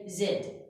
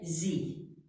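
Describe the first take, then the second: First: It is said as zed, British style. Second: It is said as zee, American style.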